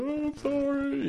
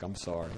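First: Imitating a boy's wailing cry; high, slow, drawn-out mock sob; crying apology. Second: Low, soft sorry; retold apology, voice dropped; quiet apology. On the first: First-grader bursting into tears as he apologises, crying. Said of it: "he just starts crying". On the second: Caretaker apologising in very basic Korean, quiet and contrite.

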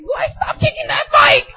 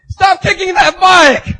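First: High, slow mock wail; scolding sister. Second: Loud, drawn-out acted shout; angry stranger's yell. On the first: Sister scolds him in argument. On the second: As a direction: yell at someone wrecking your property. Angry stranger yells from behind.

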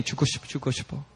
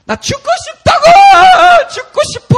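First: Soft, fast imitated chant; repetitive muttering. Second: Very high, piercing despairing shriek; full-force imitated demonized wail; possessed girl screaming. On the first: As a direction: repeat it under your breath. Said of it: "She just started repeating". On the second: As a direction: scream it out like someone tormented. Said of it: "she just starts going".

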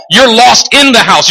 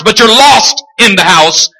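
First: IN punched higher; stress on IN. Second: LOST punched out strongly; stress on LOST. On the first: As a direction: hit the word "in". Stresses where they are lost. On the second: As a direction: hit the word "lost". Contrasts being lost with being inside. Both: Acted.

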